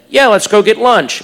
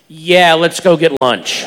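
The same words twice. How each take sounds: First: It is said in a plain, neutral tone. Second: It is said in a knowing, suggestive tone.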